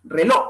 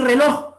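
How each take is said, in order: First: RELOJ ending on an open O; dropped final J. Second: Said in the usual way. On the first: Shown as a demonstration. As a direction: leave the J off "reloj". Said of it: "pérdida de las consonantes finales". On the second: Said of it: "En vez de decir reloj".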